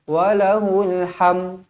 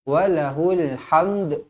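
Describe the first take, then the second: First: The word ends on m without the d. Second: The word ends with an audible d sound. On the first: The speaker calls it wrong. "Jangan berhenti walahul ham" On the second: The speaker calls it right. "kita berhenti dengan walahul hamd"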